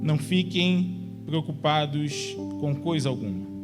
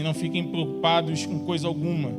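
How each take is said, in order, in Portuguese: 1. É lido em ritmo lento. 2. É lido em ritmo normal.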